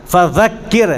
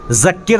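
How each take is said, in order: First: "فذکر" as "fa-dhakkir", th as in "this"; tongue tip out in "فذکر"; correct dhāl. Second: "ذکر" said as "zakkir"; wrong z sound. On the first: Teacher shows students the right letter, "فذکر" with a careful dhāl. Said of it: "ذال ہے یہاں پر". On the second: Teacher warns students of the mistake, "ذکر" mispronounced with a z. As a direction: start "ذکر" with a plain buzzing z. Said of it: "زے سے نہیں ہے". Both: Shown as a demonstration.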